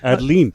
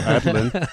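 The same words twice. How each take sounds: First: The last syllable rhymes with leen. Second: The last syllable rhymes with lin. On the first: "or it could could be Geraldine, so Adeline" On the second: "but it could be Madeline, so Adeline"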